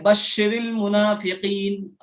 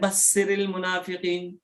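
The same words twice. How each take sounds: First: The first word has an sh sound. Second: The first word has a plain s sound. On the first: The speaker calls it right. "लिखा है" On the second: The speaker calls it wrong. "बड़ी शीन की जगह छोटा सीन निकाल दिया"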